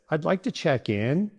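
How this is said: The voice rises at the end. The speaker sounds unsure or seems to be asking a question. The speaker calls it wrong. "If your voice goes up at the end like this"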